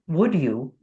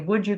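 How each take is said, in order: First: The final d is clearly pronounced before you. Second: The d blends into you, sounding like 'wouldja'. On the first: The speaker sounds more articulate. "we want to get to the end of the word" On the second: This is ordinary casual speech. "In normal speech, if you're speaking fast"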